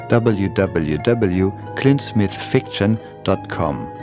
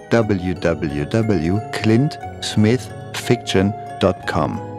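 No difference in how they are said.

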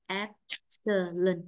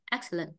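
First: Slow "Excellent" split into EX-cel-lent; syllable by syllable. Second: Said in the usual way. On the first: Shown as a demonstration. Teacher confirming first-syllable stress for the student, slow syllabified demo. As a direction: break "Excellent" into separate drawn-out syllables.

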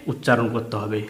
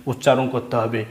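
The two takes are said the same way.

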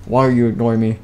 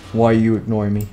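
The two takes are said the same way.

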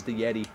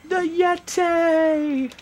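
First: Said in the usual way. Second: High, drawn-out mock announcer bellow; hammed-up announcer cry. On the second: Player hyping the Yeti's match, hammed-up drawn-out cry. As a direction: stretch the name out, pitched way up. Mimics a hyped wrestling announcement.

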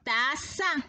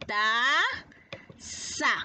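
First: Said in the usual way. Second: "Taza" as a long "ta", pause, then "za"; split into syllables. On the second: Shown as a demonstration. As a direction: stretch the first syllable of "Taza" and detach the second. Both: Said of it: "¿Cuántas tiene?".

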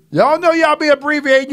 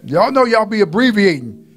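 First: Raised pitch, quicker second take; preacher repeating y'all know y'all be abbreviating higher and faster. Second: Said in the usual way. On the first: Shown as a demonstration. To the congregation, a higher, quicker repeat of know.

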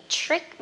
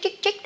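First: Trick said higher with t plus a light r; correct trick. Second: Mock the learner's ch for trick; wrong trick. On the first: Shown as a demonstration. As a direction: model a crisp tr in trick. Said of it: "chữ tờ và chữ R nhẹ". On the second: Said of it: "Mà không phải trick".

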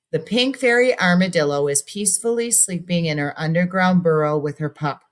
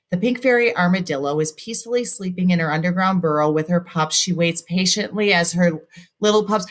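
First: Paused reading. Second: Rushed run-on reading with no stop at the period; running out of breath. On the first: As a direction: read with a breath at the period. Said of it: "I breathed there". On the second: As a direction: read straight on in one breath until the air runs out. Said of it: "I ran out of breath". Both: Shown as a demonstration.

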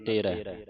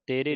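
First: ਤੇਰੇ with a wide open "eh" ending; ਤੇਰੇ, last vowel open. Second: ਤੇਰੇ with a closed "ay" ending; ਤੇਰੇ said as tay-ray; mistaken e ending. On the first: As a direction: end ਤੇਰੇ on a broad ai. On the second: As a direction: end ਤੇਰੇ on a narrow e. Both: Shown as a demonstration. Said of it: "ਤੇਰੇ ਨਹੀਂ ਪੜ੍ਹਨਾ".

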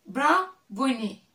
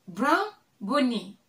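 Both takes have the same delivery.

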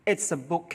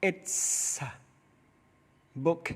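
First: It's a book with its and a joined as itsa; linked sounds. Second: It's, a, book said as separate slow words. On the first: Teacher links It's and a for students. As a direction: run It's into a smoothly. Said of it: "มันจะเชื่อมเสียงกับตัวสะ". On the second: Teacher splits It's a book word by word for students. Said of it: "คุณครูออกเสียงว่า". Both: Shown as a demonstration.

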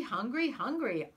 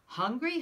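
First: Put-on baby hollering. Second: Put-on loud, higher baby wail; baby hollering. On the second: Finn as baby demanding bread, loud wailing. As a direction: bawl for food like a huge baby. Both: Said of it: "The baby began to holler too".

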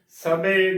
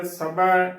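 First: ਸਭੇ ending in narrow long e; close e ending. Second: ਸਭਾ with the last vowel as open ai; open ai ending. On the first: Teacher showing the congregation's mistake, ਸਭੇ with close e. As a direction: close the final vowel of ਸਭੇ. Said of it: "ਗਲਤ ਉਚਾਰਨ ਹੈ". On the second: Teacher spelling with dulawan, ਸਭਾ with open ai. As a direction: end ਸਭਾ on a wide 'ae'. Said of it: "ਸਹੀ ਉਚਾਰਨ ਹੈ". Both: Shown as a demonstration.

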